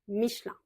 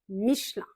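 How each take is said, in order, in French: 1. La voyelle E du milieu est avalée, ce qui raccourcit le mot. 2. La voyelle E du milieu est avalée, ce qui raccourcit le mot.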